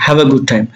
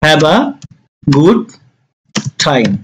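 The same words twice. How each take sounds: First: Said in the usual way. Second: Long pauses between words; slowly spaced teaching delivery. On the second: Shown as a demonstration. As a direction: break it up for learners. Teacher dictates phrase word by word.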